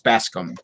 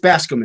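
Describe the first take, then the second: First: The name is said slowly, syllables kept apart. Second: The name is said quickly, syllables run together. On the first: "to get people to kind of say it right" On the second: "if you say it fast enough"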